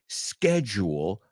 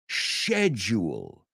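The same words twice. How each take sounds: First: It is said in a non-British pronunciation. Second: It is said in a British pronunciation. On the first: "they don't say schedule" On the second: "my British friends, they say schedule"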